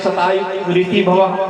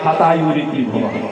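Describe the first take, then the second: First: The first word begins with an s sound. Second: The first word begins with an h sound. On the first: May you live a hundred years. The speaker calls it right. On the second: May your remaining life end now. The speaker calls it wrong.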